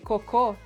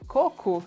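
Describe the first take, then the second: First: The stress is on the last syllable. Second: The stress is on the first syllable. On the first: It means poop. "it's poop" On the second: It means coconut. "you're meaning coconut"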